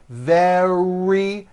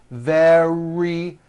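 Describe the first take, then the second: No difference in how they are said.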